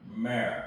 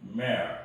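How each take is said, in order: First: The tongue curls back, giving an r sound. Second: The tongue stays flat, with no r sound. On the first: "혀의 그 끝이 입천장에 달랑말랑 할 때는" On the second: "혀를 이제 그대로 놔둔 상태에서 어, 매어 입천장에 닿지 않고"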